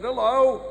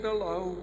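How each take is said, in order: First: Higher, lifted hello; chirpy visitor's hello; bright greeting. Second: Softer, understated hello; little old lady's muted hello; subdued reply. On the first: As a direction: greet her with a raised voice. Comedian greets old lady, acted. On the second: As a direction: answer the greeting quietly. Old lady replies, acted. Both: Acted.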